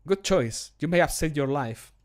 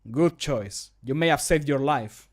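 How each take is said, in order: First: Slightly quick, emotionless line reading; devoid of emotion. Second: Mildly scolding, slightly more deliberate; a bit scolding. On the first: Guard line to someone arrested, too devoid of emotion. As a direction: deliver it briskly without much feeling. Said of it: "It's too devoid of emotion". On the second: Guard line to someone arrested, a bit scolding. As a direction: scold lightly, giving each word a little more time. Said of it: "That's a bit more scolding". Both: Shown as a demonstration.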